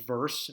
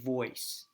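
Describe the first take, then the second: First: The vowel is plain with an r. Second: The vowel sounds like oy with no r. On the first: "instead of verse" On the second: "you say voice"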